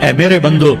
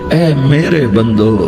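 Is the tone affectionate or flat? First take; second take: flat; affectionate. First: It is said in a plain, unloving tone. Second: It is said in a warm, tender tone. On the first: The speaker calls it wrong. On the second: The speaker calls it right.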